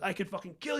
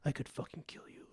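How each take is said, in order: First: It is said loudly and forcefully. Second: It is said very quietly.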